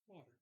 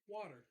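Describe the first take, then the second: First: It is said at normal, softer volume. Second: It is said loudly.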